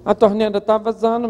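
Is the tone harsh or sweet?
harsh. It is said in a harsh, scolding tone. The listener feels bossed around and refuses. The speaker calls it wrong. "Isso é uma mulher abacaxi"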